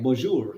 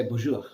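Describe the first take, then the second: First: "bonjour" with a clearly sounded final r; neutral accent. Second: "bonjour" with the final r softened away; native French accent. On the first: Teacher showing learners the neutral bonjour, neutral accent. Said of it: "in a neutral way like". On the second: Teacher showing how a French person says it, native accent. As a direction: say "bonjour" as a native, r barely sounded. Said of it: "how exactly a French person is gonna speak". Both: Shown as a demonstration.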